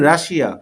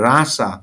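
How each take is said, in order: First: It is said as three syllables, Rashia. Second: It is said as two syllables, Rasa. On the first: The speaker calls it wrong. "আমরা বলি রাশিয়া" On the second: The speaker calls it right. "আসলে English হবে রাসা"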